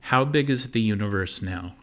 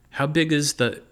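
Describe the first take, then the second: First: Said in the usual way. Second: Squeaky high chipmunk pitch. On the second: A narrator's reading. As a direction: still stuck in a chipmunk squeak. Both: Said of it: "Can you make the chipmunk thing stop".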